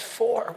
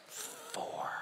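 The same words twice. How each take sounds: First: Said in the usual way. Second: Tiny, barely audible whisper; very soft secretive whisper; child's whisper. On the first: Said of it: "the pastor says". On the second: Acted. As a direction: breathe it out like a hiding four-year-old. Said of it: "the kid's whispering all the way through".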